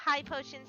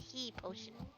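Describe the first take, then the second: First: The first word rhymes with 'sky'. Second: The first word rhymes with 'see'. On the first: "Some people pronounce that high potion" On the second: "some pronounce it he potion"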